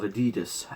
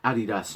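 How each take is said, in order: First: It is said the American way. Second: It is said the non-American way. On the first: The speaker calls it wrong. "not Adidas. Americans" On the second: The speaker calls it right. "it's pronounced Adidas"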